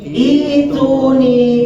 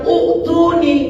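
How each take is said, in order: First: The word begins with an 'i' vowel. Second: The word begins with an 'u' vowel. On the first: The speaker calls it right. "Tapi gimana bacanya?" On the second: The speaker calls it wrong. "Bacanya bukan uktuni, bukan begitu"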